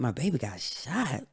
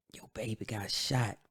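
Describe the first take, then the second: First: Retold shocked echo, pitched higher; higher, incredulous question on the news; stunned disbelief. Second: Imitating a grandma, softly telling it; subdued bad news. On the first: Echoing grandma's news back to her, stunned. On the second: Grandma telling [name] of the shooting, subdued. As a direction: break it softly, without raising the pitch.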